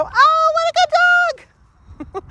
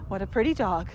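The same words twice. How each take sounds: First: Put-on much higher, slow, gushing baby-talk praise; gushing excitement. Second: Soft, low, calm greeting to a dog. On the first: Visitor gushing over the family dog, high excited coo. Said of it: "They come in and go". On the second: Retold or imitated. Visitor calmly admiring a dog, soft and low. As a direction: greet the dog quietly and evenly. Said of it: "people don't come up to a dog in your house and go".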